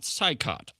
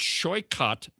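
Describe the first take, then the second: First: The name begins with a 'sigh' sound. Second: The name begins with a 'shoy' sound. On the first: The speaker calls it wrong. "not Saikot" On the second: The speaker calls it right. "corrected my pronunciation of Chakrabarti's name as it's it's Shoykot"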